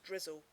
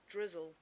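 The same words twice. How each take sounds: First: The final L sounds like a W. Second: The final L is pronounced as a clear L.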